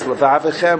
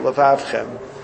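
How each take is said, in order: First: A vowel is heard between the v and ch. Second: No vowel is heard between the v and ch. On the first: "if it's Levavichem or Levavchem" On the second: "If it's Levav, it should be Levavchem"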